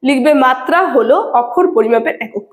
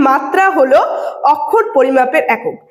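First: Said in the usual way. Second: Slow dictation. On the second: Shown as a demonstration.

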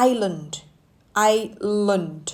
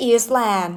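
First: "island" as eye-lund, silent S; correct pronunciation. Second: "Eastland" for island, with an ee and a sounded S; wrong pronunciation. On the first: Teacher modelling the word for learners, correct "island" as eye-lund. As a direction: say "island" carefully, weak second syllable lund. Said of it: "ออกเสียงข้างหลังเป็นเลิ่น". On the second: Teacher warning learners off a misreading, wrong pronunciation "Eastland". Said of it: "ไม่ใช่ Eastland นะจ๊ะ". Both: Shown as a demonstration.

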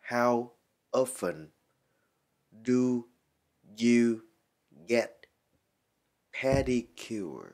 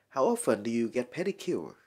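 First: "How often do you get pedicure" with a pause after each word; slow teaching model of "pedicure" sentence. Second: Said in the usual way. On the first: Shown as a demonstration. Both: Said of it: "Nguyên câu này đọc lại là".

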